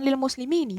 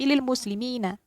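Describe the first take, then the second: First: The final nun is followed by an 'i' vowel. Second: The final nun is followed by an 'a' vowel. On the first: The speaker calls it wrong. "Bukan lil muslimini, bukan" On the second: The speaker calls it right. "nunnya yang di paling belakang dibaca fathah"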